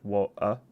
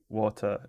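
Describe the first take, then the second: First: The t sound is left out. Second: The t sound is clearly pronounced. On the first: "if I'm missing the t" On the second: "it's like t at the end"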